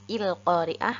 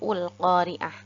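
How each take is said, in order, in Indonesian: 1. Kata itu diawali dengan vokal i. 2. Kata itu diawali dengan vokal u. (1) "Jadi bukan il-qari'ah" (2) "atau ul-qari'ah"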